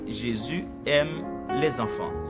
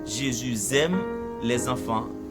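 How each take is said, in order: First: Jésus and aime are said without linking. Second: The s of Jésus is linked to aime. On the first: The speaker calls it right. "mais je dis" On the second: The speaker calls it wrong. "on va dire"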